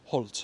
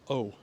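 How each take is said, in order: First: It has an h, an l and a t. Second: It is a bare vowel with no consonants. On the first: "as the Normans would have pronounced it" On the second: "which is tall in modern French"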